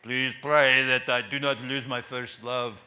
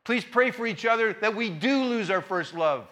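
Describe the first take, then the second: First: Slow, weighty imitation of a preacher; preacher's slow sign-off, lightly imitated; imitating admired preacher. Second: Emphatic DO before "lose"; stress on DO. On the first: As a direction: lightly copy a preacher's measured closing plea. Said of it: "to be just like him". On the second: Real, not acted. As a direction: DO leaned on in "we do lose". Reverses the preacher's closing line.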